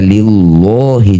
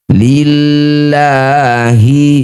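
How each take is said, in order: First: The L sound is heavy and thick. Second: The L sound is light and thin. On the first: The speaker calls it wrong. "tidak perlu dibaca lillahi, jangan" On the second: The speaker calls it right. "lafaz Allah jika didahului kasroh maka lamnya baca tarkik"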